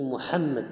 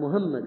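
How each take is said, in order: First: The h is a deep throaty pharyngeal sound. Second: The h is a light plain breathy sound. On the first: The speaker calls it right. "انا اسمي محمد بالحاء" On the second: The speaker calls it wrong. "وحاول يقول الحاء فلم يستطيع"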